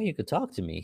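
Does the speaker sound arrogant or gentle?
gentle. The tone sounds gentle and reassuring. The listener is safe and welcome to speak. The speaker calls it right. "But I didn't say it that way"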